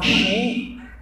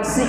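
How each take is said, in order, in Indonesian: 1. Bunyi s-nya seperti sh yang mendesis. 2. Bunyi s-nya ringan dan biasa. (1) "bukan shi" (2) "bukan si ya"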